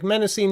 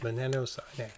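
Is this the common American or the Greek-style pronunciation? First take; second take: American; Greek-style. First: It is said in the common American way. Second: It is said in a Greek-style way. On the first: The speaker calls it wrong. "I massacred um Menocene, but that's kind of what popular parlance is in the United States" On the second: The speaker calls it right. "he pronounced it like something like this"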